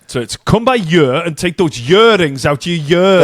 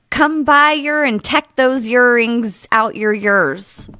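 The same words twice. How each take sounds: First: Welsh sing-song; Welsh accent. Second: Put-on lilting Welsh accent. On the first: Shown as a demonstration. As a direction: read it as a Welsh speaker. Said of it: "The year is more like year". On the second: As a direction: say it like a Welsh local. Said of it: "That's very good".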